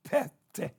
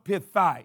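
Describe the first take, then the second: First: The word is said like pete. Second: The word is said with a th sound. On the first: The speaker calls it right. "It is pronounced pete" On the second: The speaker calls it wrong. "It looked like it should be pronounced pithy or pithai"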